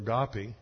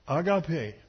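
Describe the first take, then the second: First: The word has an English-style pronunciation. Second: The word has a Greek-style pronunciation.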